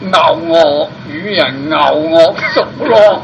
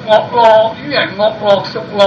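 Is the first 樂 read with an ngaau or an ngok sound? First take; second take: ngaau; ngok. First: The first 樂 is read ngaau, a departing tone. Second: The first 樂 is read ngok, an entering tone. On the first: The character is a verb meaning to enjoy. The speaker calls it right. "應該讀咬嗰個就動詞" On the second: The character is read as the noun music. The speaker calls it wrong. "我哋啲老師偏偏係要教讀惡落"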